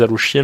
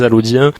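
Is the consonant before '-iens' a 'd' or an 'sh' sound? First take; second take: sh; d. First: The consonant before the ending is an 'sh' sound. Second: The consonant before the ending is a 'd' sound. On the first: The speaker calls it wrong. "ça se prononce non pas les Alochiens" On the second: The speaker calls it right. "mais les Alaudiens"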